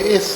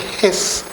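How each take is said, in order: First: The word begins with a vowel, no H. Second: The word begins with an audible H sound. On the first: "in French and Portuguese, you say is" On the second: "In English, say HIS"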